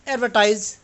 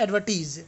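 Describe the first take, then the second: First: The word is said with an American pronunciation. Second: The word is said with a British pronunciation. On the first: "American English का pronunciation होता है एडवर्टाइज" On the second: "British English का होता है एडवर्टीज"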